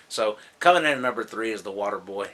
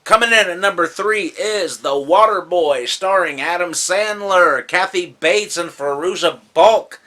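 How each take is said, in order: First: Said in the usual way. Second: Loud, high announcer build-up; countdown announcer. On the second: Real, not acted. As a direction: announce the entry and cast with fanfare. Countdown announcement of next entry.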